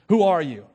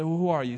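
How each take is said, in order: First: Sudden louder challenge; accusatory. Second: Said in the usual way. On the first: Acted. Priests confronting John, accusatory. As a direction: demand it accusingly, with a burst of volume. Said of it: "they're coming at him accusatorily".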